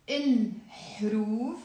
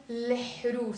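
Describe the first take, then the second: First: الحروف opening with il, vowel before the l; as written. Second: الحروف opening with le-, l before the vowel; flipped article. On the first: Teacher reading the word written here, il first. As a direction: begin الحروف on il-, then huruf. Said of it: "I wrote here the word". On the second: Teacher showing their preferred pronunciation, article flipped. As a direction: flip il to le at the start of الحروف. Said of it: "I like to pronounce it". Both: Shown as a demonstration.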